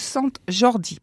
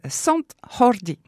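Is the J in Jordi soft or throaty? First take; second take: soft; throaty. First: The J is a soft, non-throaty sound. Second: The J is a throaty, rasping sound.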